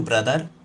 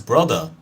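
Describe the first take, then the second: First: It is said in an imitated Indian accent. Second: It is said in a standard English accent. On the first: "You probably say it like that" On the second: "which is the actual way of saying"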